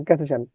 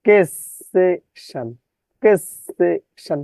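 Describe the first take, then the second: First: Said in the usual way. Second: "কেসেশন" slowly, three separated syllables; distorted spelling pronunciation. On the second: Shown as a demonstration. ("কেসেশন" ধীরে, ভেঙে ভেঙে উচ্চারণ) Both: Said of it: "বিকৃত উচ্চারণ করবেন".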